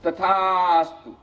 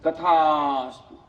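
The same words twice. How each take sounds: First: Slow, drawn-out divine boon; conch god granting. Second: Slow, drawn-out divine voice; sea god granting. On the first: Conch god grants the wife's wish, slow and solemn. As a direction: draw out each syllable like a deity. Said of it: "શંખ દેવતા કહે". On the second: Sea god grants the poor man's wish, slow and solemn. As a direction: stretch it out like a god granting a boon. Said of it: "તથાસ્તુ, (sea god's reply)". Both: Acted.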